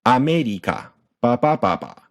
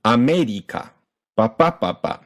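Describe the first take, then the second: First: No punch on any syllable of "America"; flat volume. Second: "America" and "ba ba ba ba" with the second beat punched; punched second syllable. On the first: Teacher showing Japanese volume, "America" evenly weighted throughout. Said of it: "everything is flat". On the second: Teacher showing uneven volume, "America" punched on MEH. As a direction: hit MEH in "America", then ba BA ba ba. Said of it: "So instead of America". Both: Shown as a demonstration.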